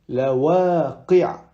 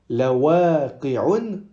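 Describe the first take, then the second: First: The word ends without an n sound. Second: The word ends with an un sound. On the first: The speaker calls it right. "on dit la waqi'a" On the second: The speaker calls it wrong. "On ne dit pas la waqi'un, non"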